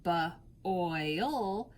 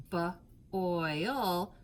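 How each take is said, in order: First: "ba-oil" split into two parts, ba then oil; teacher segmenting "ba-oil"; sounding out. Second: "ba-oil" split in two with a falling end; tapping out "ba-oil" on the arm; segmented boil again. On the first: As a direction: break "ba-oil" apart to show the sound after oi. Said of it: "word on your arm". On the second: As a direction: sound out "ba-oil" slowly in parts. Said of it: "you have the ul after oi". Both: Shown as a demonstration.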